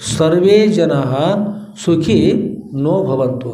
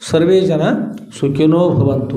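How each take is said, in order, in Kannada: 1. 'sukhi' ಮತ್ತು 'no' ನಡುವೆ ಸಣ್ಣ ವಿರಾಮ ಇದೆ. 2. 'sukhino' ಒಂದೇ ಪದವಾಗಿ, ವಿರಾಮವಿಲ್ಲದೆ ಹೇಳಲಾಗುತ್ತದೆ.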